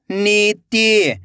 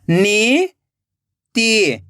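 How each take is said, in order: First: नीति joined as one slow word; blended word. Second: नीति split into नी, long pause, ति; rising नी, then falling ति; syllable by syllable. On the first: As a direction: read नीति whole, stretching the नी. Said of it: "खींच के पढ़ना है". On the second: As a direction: sound out नीति very slowly in two parts. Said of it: "एक एक अक्षर का उच्चारण करना है". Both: Shown as a demonstration.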